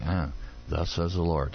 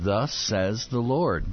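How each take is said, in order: First: Weary Pharaoh. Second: Slow, weighty prophet's declaration; solemn proclamation. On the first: Retold or imitated. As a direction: groan it like you've heard it a hundred times. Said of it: "You gotta think Pharaoh's going". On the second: Acted. Moses to Pharaoh, slow solemn proclamation. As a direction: pronounce it like a royal decree, slowly.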